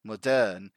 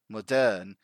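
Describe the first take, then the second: First: The stress falls on the second syllable. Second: The same.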